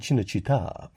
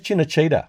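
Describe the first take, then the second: First: The word is pronounced the Italian way. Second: The word is pronounced the English way. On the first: The speaker calls it right. "pronounce it the Italian way" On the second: The speaker calls it wrong. "when I pronounced it incorrectly"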